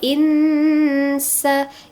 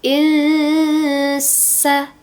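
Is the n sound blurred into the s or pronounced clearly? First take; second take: clear; blurred. First: The n is pronounced fully and clearly before s. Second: The n is blurred and nasal, gliding into s. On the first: The speaker calls it wrong. "insa itu berarti na harusnya" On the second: The speaker calls it right. "bacanya seakan-akan mau baca sa gitu bunyinya"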